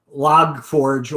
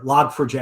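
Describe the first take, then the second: First: "log forge", last part said as one word like forge; alternative pronunciation. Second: "log four j", number and letter said separately; alternative pronunciation. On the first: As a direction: say "log forge" with the ending run together as one syllable. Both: Shown as a demonstration. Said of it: "which way is the better way to pronounce it".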